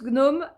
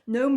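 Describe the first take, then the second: First: The G at the start is pronounced. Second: The G at the start is silent. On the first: "je prononce gnome à la française" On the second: "en anglais, on n'entend pas le G"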